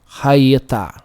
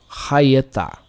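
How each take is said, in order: No difference in how they are said.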